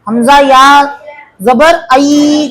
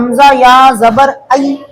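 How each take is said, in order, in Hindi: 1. अंतिम ध्वनि लंबी खींची गई है। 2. अंतिम ध्वनि नरम और जल्दी वाली है। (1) "कई को खींचे इसमें।" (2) "आई नरम आवाज से पढ़े और जल्दी पढ़े।"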